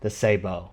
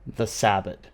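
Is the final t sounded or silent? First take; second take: silent; sounded. First: The final t is silent. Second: The final t is pronounced. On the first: The speaker calls it right. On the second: The speaker calls it wrong. "You thought I was going to pronounce it like that"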